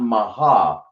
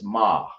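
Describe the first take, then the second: First: The word is said as two syllables, ma-ha. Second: The word is said as one short syllable, ma. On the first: The speaker calls it wrong. "So it's not maha" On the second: The speaker calls it right. "it's ma. Just like that. That's how you pronounce it"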